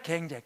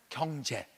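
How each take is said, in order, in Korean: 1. 첫 모음은 'ae'로 발음되는데, 사투리 방식이에요. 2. 첫 모음은 'yeo'로 발음되는데, 표준 방식이에요. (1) "경상도 밀양아이라 사투리가 심해" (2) "표준말을 가르치는 거야"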